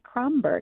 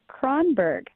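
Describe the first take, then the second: First: The consonant before the b is m. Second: The consonant before the b is n. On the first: The speaker calls it wrong. "not Kromberg. I had the wrong consonant in there" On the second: The speaker calls it right. "your name is Kronberg"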